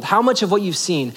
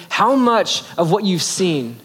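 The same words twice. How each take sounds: First: Said in the usual way. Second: A slow, weighty question to his apprentice; slow, probing question. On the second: Retold or imitated. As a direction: let each word land slowly as you test him. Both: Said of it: "He's testing him by saying".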